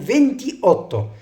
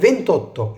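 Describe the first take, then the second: First: The vowel is kept and both words sound separately. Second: The vowel is dropped and the words merge. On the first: The speaker calls it wrong. "مش بقول فينتي اوتو" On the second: The speaker calls it right. "بقول فينتوتو"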